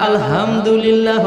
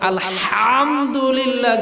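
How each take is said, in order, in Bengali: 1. 'h' একটি সহজ, হালকা শ্বাস। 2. 'h' গলায় জোরে চেপে বলা হয়। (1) "আমারটা আলহামদুলিল্লাহ হয়ে যায়" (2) "হুজুর গো মতো আলহামদুলিল্লাহ গলার মধ্যে চাপ দিয়ে আমি হা উচ্চারণ করতে পারবো না"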